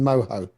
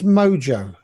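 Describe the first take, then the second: First: The middle consonant is an H sound. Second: The middle consonant is a J sound. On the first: The speaker calls it wrong. "Where's the H in Moho?" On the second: The speaker calls it right. "It's Mojo"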